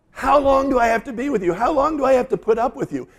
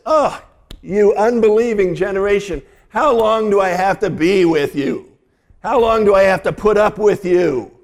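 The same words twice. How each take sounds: First: Much higher, fed-up lament; exasperated. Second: High, loud exasperation at the end of his rope; Jesus fed up, voice raised and pleading; exasperated. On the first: Pastor repeating Jesus' words to the congregation, exasperated. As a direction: sigh it out, at the end of his rope. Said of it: "say it with a little bit of emotion". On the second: Pastor voicing Jesus fed up with the crowd, exasperated. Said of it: "I want to say it with a little bit of emotion". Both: Acted.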